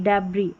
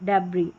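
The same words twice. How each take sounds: No difference in how they are said.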